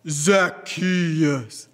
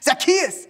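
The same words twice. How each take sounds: First: The name is said slowly. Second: The name is said fast.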